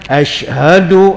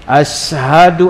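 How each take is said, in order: First: The word is said with an 'sh' sound. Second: The word is said with a plain 's' sound. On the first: This is the proper Arabic pronunciation. The speaker calls it right. "Macam kita kan" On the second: This is how a non-native Arabic speaker pronounced it. The speaker calls it wrong. "Shin dia jadi sin"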